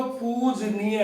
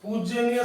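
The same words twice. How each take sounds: First: पूजनीय as pooj-neeya, no y after j; drawn-out पूजनीय with a plain j: pooj-NEE-ya; correct pronunciation. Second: पूजनीय with an added y: pooj-ya-neeya; wrong pronunciation. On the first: Teacher giving the right word, plain j in पूजनीय. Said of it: "सही शब्द तो पूजनीय है". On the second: Teacher rejecting a wrong word, extra ya in पूजनीय. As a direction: slip a "ya" after the j in पूजनीय. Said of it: "पूजनीय शब्द नहीं होता". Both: Shown as a demonstration.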